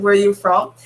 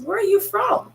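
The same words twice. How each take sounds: First: Said in the usual way. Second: Imitating the young man's bright rising query; young man asking. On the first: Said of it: "when somebody said". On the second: Young man at Walmart asking where she's from, high curious rise. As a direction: voice lifted much higher, curious rising question. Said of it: "he says".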